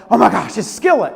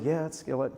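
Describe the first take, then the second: First: Gushing fan spotting a favorite band; excited exclamation. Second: Low, soft, matter-of-fact confirmation; understated reply. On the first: Woman to minister on seeing the band poster, excited. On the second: Minister answering the excited woman, understated. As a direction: answer her excitement quietly and evenly. His own unimpressed reply to her. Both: Retold or imitated.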